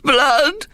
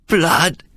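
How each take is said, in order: First: Blood! shrieked very high with a rising end; Blood! wailed, climbing upward in panic; hysterical sob. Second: High, frightened cry of Blood!; Blood! yelped high in fright; mild panicked sob. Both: A narrator's reading. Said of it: "he sobbed".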